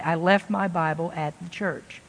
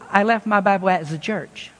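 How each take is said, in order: First: "the church" with a proper TH in the; quiet, low imitation, "the" kept as TH; careful pronunciation. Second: "the church" said as "zuh church"; "the church" with a buzzing Z starting "the"; TH turned to Z. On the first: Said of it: "she'll think about that very carefully". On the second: Retold or imitated. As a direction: imitate a French speaker, Z for TH in "the church". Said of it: "I hear a Z".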